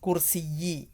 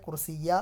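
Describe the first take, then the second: First: The word ends in the vowel i. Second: The word ends in the vowel a. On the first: The speaker calls it right. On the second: The speaker calls it wrong. "കുർസിയ അല്ല വരിക"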